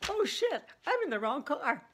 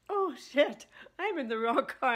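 First: High, loud startled oh shit; sudden alarmed realization. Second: Louder, high startled oh shit; imagined sudden panic. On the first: Friend realizing she sat in a stranger's car, startled. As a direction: blurt it out as the mistake dawns. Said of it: "instantly she gets, quote". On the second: Retelling her friend's panic in the wrong car, loud. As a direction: blurt it like the moment of panic. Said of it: "all of a sudden saying". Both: Retold or imitated.

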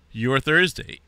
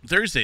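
First: Hiccuping mid-word; hiccups. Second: Said in the usual way. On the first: Real, not acted. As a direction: talk through a hiccup. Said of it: "I got hiccups all of a sudden". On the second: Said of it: "excuse me".

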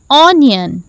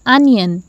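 First: Onion said "oh-nion" with a rounded o; wrong onion. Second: Onion said "uh-nyun" with an open a; correct onion. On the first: Teacher voicing the wrong onion, rounded o. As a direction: onion starting with an "aw" sound. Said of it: "Is it onion?". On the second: Teacher giving the right onion, open first vowel. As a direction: onion starting with a short "uh". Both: Shown as a demonstration.

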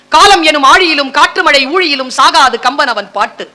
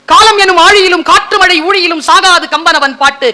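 First: Measured poem quotation at everyday volume; restrained first reading of a verse; measured verse recital. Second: Higher-pitched, declaimed poetry; lifted, ringing delivery of the verse; rousing verse recital. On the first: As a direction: recite the verse evenly, near speaking pitch. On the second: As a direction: recite it with heightened relish. Repeats verse with more relish. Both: Shown as a demonstration.

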